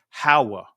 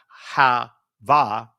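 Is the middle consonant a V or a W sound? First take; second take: W; V. First: The middle consonant is a W sound. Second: The middle consonant is a V sound. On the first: The speaker calls it right. "there was no va sounds, so it'd actually be Hawa" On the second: The speaker calls it wrong. "Not ha va"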